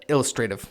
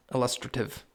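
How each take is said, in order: First: ILLUSTRATIVE with first syllable stressed and a long "ay" in the third; variant pronunciation. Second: ILLUSTRATIVE with second syllable stressed and a short third; alternative pronunciation. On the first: Podcaster trying one way to say illustrative, first-syllable stress with "tray". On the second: Podcaster trying the other way to say illustrative, stress on "LUS". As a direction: say "illustrative" as il-LUS-truh-tiv. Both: Shown as a demonstration. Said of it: "I don't know which way to say that".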